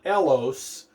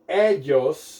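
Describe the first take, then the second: First: The middle consonant is a plain L sound. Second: The middle consonant is a Y-like sound. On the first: The speaker calls it wrong. "not elos" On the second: The speaker calls it right.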